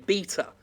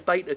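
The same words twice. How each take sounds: First: It is said the British way. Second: It is said the American way.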